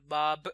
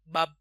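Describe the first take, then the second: First: The final b is clearly sounded. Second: The final b is barely audible. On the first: The speaker calls it right. "diucap konsonan belakangnya kayak bab, b-nya itu bunyi b" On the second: The speaker calls it wrong. "kadang nggak kedengeran, kedengeran kayak bak biasa gitu"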